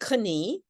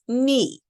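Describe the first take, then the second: First: The K at the start is pronounced. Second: The K at the start is not pronounced. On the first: The speaker calls it wrong. "We don't say knee" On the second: The speaker calls it right. "No, it's knee"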